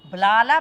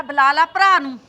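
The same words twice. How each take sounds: First: Louder, rising on ਲੈ; defiant dare. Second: Louder, falling on ਭਰਾ; defiant dare. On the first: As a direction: challenge her to call him. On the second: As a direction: repeat the dare harder. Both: Acted. Mother-in-law dares her. (ਸੱਸ ਦਾ ਲਲਕਾਰਾ)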